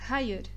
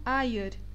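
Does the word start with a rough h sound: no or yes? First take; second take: yes; no. First: The word starts with a rough h sound. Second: The word starts directly with a vowel. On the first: The speaker calls it right. "A pronúncia é hayır" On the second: The speaker calls it wrong. "pronunciam essa palavra como ayır e está errado"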